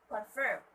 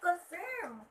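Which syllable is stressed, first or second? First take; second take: second; first. First: The stress is on the second syllable. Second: The stress is on the first syllable. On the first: The speaker calls it right. "The stress should be at the um, second syllable or the last syllable" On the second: The speaker calls it wrong. "they would say that, which is wrong"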